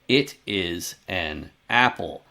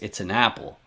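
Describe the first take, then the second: First: Small pauses separate each of the words. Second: The words run together without any pauses. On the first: The speaker calls it wrong. "So they put these little silences, these little spaces between the words" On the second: The speaker calls it right. "the correct way to say is"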